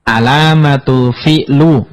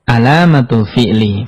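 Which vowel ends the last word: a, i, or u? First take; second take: u; i. First: The last word ends with a u vowel. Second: The last word ends with an i vowel. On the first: The speaker calls it wrong. "nggak boleh" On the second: The speaker calls it right. "Harus dibaca"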